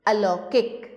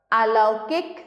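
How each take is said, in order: First: Said in the usual way. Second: अलौकिक opened as "aa-lau-kik"; अलौकिक said with a long "AA" first; misspelt long start. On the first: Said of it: "सामने शुद्ध करके". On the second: Shown as a demonstration. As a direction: lengthen the first vowel of अलौकिक to "aa". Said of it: "अशुद्ध शब्द लिखे हुए".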